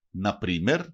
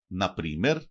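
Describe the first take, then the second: No difference in how they are said.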